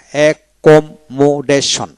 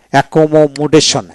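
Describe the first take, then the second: First: Slow, split "accommodation" into e-kom-mo-deshon; syllable by syllable. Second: Said in the usual way. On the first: Shown as a demonstration. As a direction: spell out "accommodation" in separate beats for a learner. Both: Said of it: "এইভাবে".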